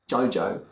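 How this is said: The vowel is said with a Cockney accent. "If he was supposed to be Cockney, um, uh, uh, it should be like"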